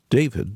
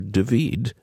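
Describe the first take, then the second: First: The name is pronounced the English way. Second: The name is pronounced the Hebrew way. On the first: "in both the English and Hebrew" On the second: "or David"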